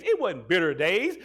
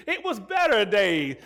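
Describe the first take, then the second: First: Said in the usual way. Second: Slow, leaning hard on "better"; "better" drawn out and weighted, as the right word; stress on better. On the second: Shown as a demonstration. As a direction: stretch out "better" to correct "bitter".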